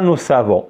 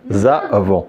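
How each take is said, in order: First: The words are linked with an s sound. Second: The words are linked with a z sound. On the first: The speaker calls it wrong. "C'est pas ça. C'est pas nous savons" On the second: The speaker calls it right. "on la prononce cette S avec A, ça devient ZA"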